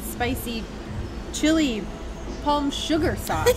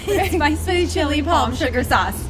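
First: The phrase is said at a normal pace. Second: The phrase is said quickly.

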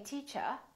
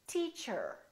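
First: The final R is not pronounced. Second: The final R is clearly pronounced. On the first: This is the British way of saying it. "In British English, people generally don't pronounce the final R" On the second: This is the American way of saying it. "Americans say teacher"

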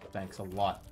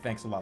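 First: It sounds sarcastic and ironic. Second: It sounds sincere and genuinely grateful.

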